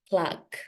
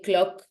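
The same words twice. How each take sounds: First: It is said with an English-sounding O vowel. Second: It is said with a Spanish-sounding O vowel. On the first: The speaker calls it right. "It has to sound clock" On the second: The speaker calls it wrong. "Clock is like a Spanish O clock"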